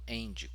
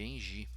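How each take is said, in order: First: The name is pronounced the American English way. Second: The name is pronounced the Brazilian Portuguese way.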